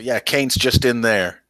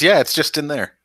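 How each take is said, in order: First: Captain's voice. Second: Captain's voice, higher. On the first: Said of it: "but they say". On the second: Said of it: "He says". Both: Acted.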